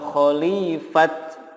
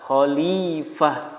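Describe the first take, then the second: First: The word ends with a t sound. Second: The word ends with an h sound. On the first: The speaker calls it wrong. "atau khalifat, nggak boleh" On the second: The speaker calls it right. "yang benar adalah khalifah"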